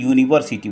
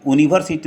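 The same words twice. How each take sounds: First: The word begins with a 'y' consonant sound. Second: The word begins with a plain vowel sound. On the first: The speaker calls it right. "यू से शुरू होता है और यू क्या है, ये consonant sound है।" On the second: The speaker calls it wrong. "यूनिवर्सिटी नहीं बोलते हैं"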